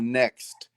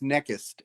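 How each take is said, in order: First: It is said in standard English. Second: It is said with an Egyptian accent. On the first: "instead of next" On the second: "most Egyptians pronounce the word N E X T as next"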